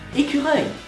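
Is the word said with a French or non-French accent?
French. It is said with a native French pronunciation. The speaker calls it right. "That's how you say it"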